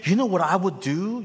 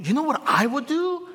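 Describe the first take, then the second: First: Said in the usual way. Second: Asked again much higher in a put-on tone; mock eager pastor voice. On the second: Shown as a demonstration. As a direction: lift it into a playful voice.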